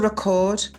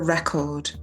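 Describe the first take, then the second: First: The stress is on the second syllable. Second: The stress is on the first syllable. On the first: It is the verb, meaning to write down or capture. "The verb to record, um, you can hear the, the stresses on the second bit" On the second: It is the noun, meaning a best result or a disc. "the noun, ... the stress is on the first on part the first, of the word"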